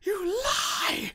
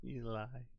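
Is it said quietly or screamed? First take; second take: screamed; quietly. First: It is screamed loudly. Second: It is said very quietly.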